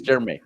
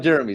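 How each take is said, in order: First: Jeremy said as "Jer-may"; altered name pronunciation. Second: Said in the usual way. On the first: Shown as a demonstration. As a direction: say Jeremy in two syllables, ending in "may". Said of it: "it's Jeremy". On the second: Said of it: "It's not Jeremy, it's Jeremy".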